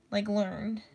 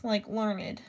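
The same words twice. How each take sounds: First: "learned" said as LURND; "learned" with the -ed run straight into the n; one-syllable learned. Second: "learned" said as LUR-nid; "learned" with the -ed sounded as its own syllable; two-syllable learned. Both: Retold or imitated. Word said two ways.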